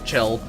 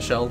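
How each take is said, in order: First: The name begins with a hard 'ch' sound. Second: The name begins with a soft 'sh' sound. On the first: "not Chell" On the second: "I say Shell like you would say Rochelle"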